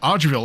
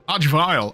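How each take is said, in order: First: The last syllable rhymes with 'fill'. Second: The last syllable rhymes with 'mile'. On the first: This is how the speaker used to say it. The speaker calls it wrong. "That's what I used to call them" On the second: This is how everyone says it. The speaker calls it right. "how everyone was supposed to pronounce them"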